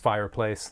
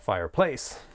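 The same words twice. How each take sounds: First: The stress is on the first syllable. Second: The stress is on the last syllable. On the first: The speaker calls it right. "My word was fireplace there" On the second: The speaker calls it wrong. "not fireplace. Can be a bad habit to bump the final note of a phrase"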